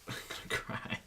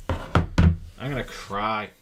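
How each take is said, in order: First: Voiceless whisper to yourself; hushed, whispered mock despair; whispered lament. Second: Loud, drawn-out lament; mock despair. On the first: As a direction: whisper it under your breath. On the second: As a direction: stretch it out slowly and loudly. Mock despair at missed trade. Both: Real, not acted.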